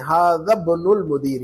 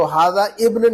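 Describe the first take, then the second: First: इब्नुल joined to हाजा as bnul, slow and clear; teacher models इब्नुल मुदीरी slowly; correct way, a bit slow. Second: हाजा इब्न said apart, a full separate इब्न; wrong way shown. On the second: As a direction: sound the alif of इब्न as a plain i. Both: Shown as a demonstration. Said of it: "तो हाजा इब्न नहीं कहेंगे".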